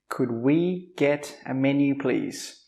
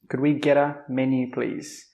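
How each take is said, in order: First: The phrase is said slowly and carefully. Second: The phrase is said fast and run together.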